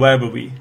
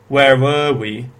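First: The word 'were' is weak and unstressed. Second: The word 'were' is stressed and strong. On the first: The speaker calls it wrong. "rather than" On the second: The speaker calls it right. "instead of"

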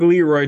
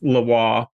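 First: The name is read with English pronunciation. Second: The name is said with French pronunciation. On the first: The speaker calls it wrong. "It's going to look like Leroy to you" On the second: The speaker calls it right. "the French pronunciation is Lavoir"

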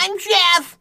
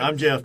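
First: It is said in a silly put-on voice. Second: It is said in his own adult voice.

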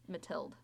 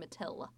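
First: The name ends with a final D sound. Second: The name ends without a final D sound. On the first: The speaker calls it right. "in case you want to pronounce it correctly, that's how it's Matilde" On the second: The speaker calls it wrong. "There's no D. We're just saying Matil"

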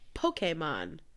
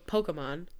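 First: The word is said slowly, every sound clearly pronounced. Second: The word is said quickly, running together. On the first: This imitates how the anime says it. "They very pronounce all the letters" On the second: This is a casual everyday way of saying it. "Some people say it really fast and go Pokemon"

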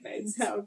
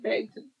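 First: The final syllable is a full 'town'. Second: The final syllable is a reduced 'tun'. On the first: The speaker calls it wrong. "It's not like Bangtown" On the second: The speaker calls it right. "but you say it Bangton"

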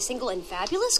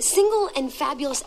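First: It is said as a question, rising at the end. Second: It is said as an exclamation, falling at the end.

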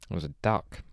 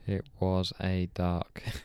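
First: It is said at normal speed. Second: It is said slowly.

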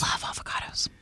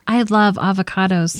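First: The words are said in a whisper. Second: The words are said in a normal voice.

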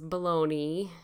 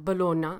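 First: It is said with an American pronunciation. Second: It is said with an Italian pronunciation. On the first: "spelled the same as Bologna in America" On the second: "is how you say it in Italian"

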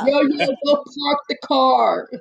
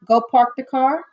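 First: The R sounds are dropped, New York style. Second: The R sounds are clearly pronounced.

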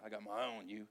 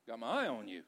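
First: It sounds stern and watchful, not inviting. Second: It sounds warm and flirtatious. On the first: The listener is being watched for mistakes. "And it doesn't even sound like inviting" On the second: The listener is admired and wanted. "hey, babe"

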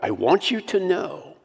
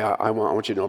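First: It is said with strong passion and intensity. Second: It is said flatly, without much feeling. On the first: It is an urgent plea not to forget. The speaker calls it right. "I think he's saying it with some passion here" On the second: It is just a casual, offhand remark. The speaker calls it wrong.

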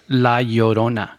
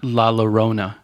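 First: The double L is sounded like an English Y. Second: The double L is sounded like an English L. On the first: The speaker calls it right. "It's La Llorona. the double L, it translates into a Y sound" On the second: The speaker calls it wrong. "So it's not La Llorona, which I've heard a lot of people pronounce"

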